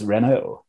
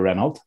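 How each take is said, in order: First: The name is said the French-style way. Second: The name is said the anglicised way. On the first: The speaker calls it right. "Then I became cultured and went, no, it's Renault" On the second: The speaker calls it wrong. "I used to call her Renault"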